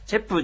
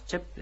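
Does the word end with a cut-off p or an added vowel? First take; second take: added vowel; cut-off p. First: The final p is released with a vowel. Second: The final p is cut off with closed lips. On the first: The speaker calls it wrong. "チェップじゃない" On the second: The speaker calls it right. "口を閉じて、発音を、止める感じですね。息を止める感じ。"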